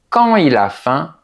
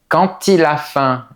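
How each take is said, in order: First: No t sound links quand to il. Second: A t sound links quand to il. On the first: The more relaxed way of saying it. "La deuxième phrase est un peu plus décontractée" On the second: The more careful way of saying it. "la liaison est facultative"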